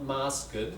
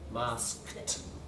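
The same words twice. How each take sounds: First: The ending is said as an extra syllable. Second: The ending is a consonant cluster, one syllable. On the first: The speaker calls it wrong. "Not masked, ... the extra syllable, right, like that" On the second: The speaker calls it right. "So you've got a cluster there"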